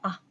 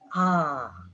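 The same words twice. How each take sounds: First: The vowel is held very briefly. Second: The vowel is held for a long time. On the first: "very short" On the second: "also very long"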